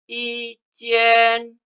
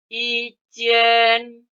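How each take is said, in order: Both takes have the same delivery.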